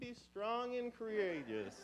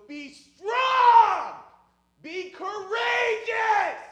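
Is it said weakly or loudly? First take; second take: weakly; loudly. First: It is said quietly and without force. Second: It is shouted loudly like a battle cry.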